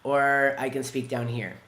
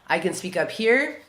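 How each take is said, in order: First: The voice is pitched low. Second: The voice is pitched high.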